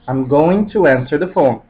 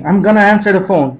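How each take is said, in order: First: The words 'going to' are said in full. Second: The words 'going to' are reduced to 'gonna'. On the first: The call is not urgent or important. "Não é nada de importante" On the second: The call is urgent and important. "mas com o gonna"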